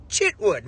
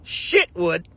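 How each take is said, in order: First: Chitwood with a ch sound, plain; right name. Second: Shitwood with a sh sound; wrong name. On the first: Correcting the Nigerian host, the right ch version. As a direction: say Chitwood with a crisp ch. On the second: Correcting how the Nigerian host said his name, sh version. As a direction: say Shitwood with sh, the mistaken way. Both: Shown as a demonstration. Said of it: "It's Chitwood".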